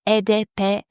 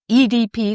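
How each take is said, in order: First: The letters are named with Spanish pronunciation. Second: The letters are named with English pronunciation. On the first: The speaker calls it wrong. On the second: The speaker calls it right.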